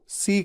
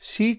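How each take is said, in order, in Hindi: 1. यह शब्द सादी 's' ध्वनि से शुरू होता है। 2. यह शब्द 'sh' ध्वनि से शुरू होता है। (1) "सरिता वाला स यूज कर लेना" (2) "जबकि करना है शलगम वाला श"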